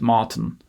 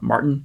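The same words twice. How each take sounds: First: There is no R, and the second vowel is further back. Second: The R after the first vowel is pronounced. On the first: This is how the South African friend says it. "he says Martin" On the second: This is how North Americans say it. "he doesn't actually say the R in his name like we would in Canada or the U S, not Martin"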